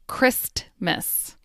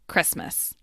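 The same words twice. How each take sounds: First: Every sound, including the T, is clearly pronounced. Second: The T sound is dropped from the word. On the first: The speaker calls it wrong. "I enunciated each word, meaning I carefully pronounced each sound" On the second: The speaker calls it right. "The T in Christmas disappears"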